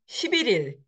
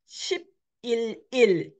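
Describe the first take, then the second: First: The final L carries over into the next syllable. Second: The syllables are said separately, unlinked. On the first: The speaker calls it right. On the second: The speaker calls it wrong.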